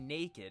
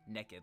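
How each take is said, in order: First: The first vowel sounds like 'ay'. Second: The first vowel sounds like short 'e'. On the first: The speaker calls it right. "I don't say naked" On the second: The speaker calls it wrong. "like with an E"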